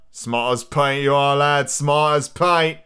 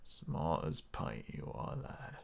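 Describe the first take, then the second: First: Drawn-out Australian pirate voice; loosely Australian old sea dog; Australian accent. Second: Very quiet, slow, low growl; low unvoiced rasp, drawn out; gritty voice. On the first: Acted. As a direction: try a hearty, slow Australian twang. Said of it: "it's kind of Australian almost". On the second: Shown as a demonstration. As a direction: try a whispered gritty pirate. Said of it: "What else do I have with grit?".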